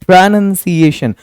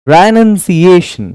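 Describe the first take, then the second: No difference in how they are said.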